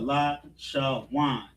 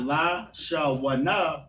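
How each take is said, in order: First: The last two syllables merge into one syllable. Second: The last two syllables are said separately. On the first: The speaker calls it right. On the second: The speaker calls it wrong. "So not"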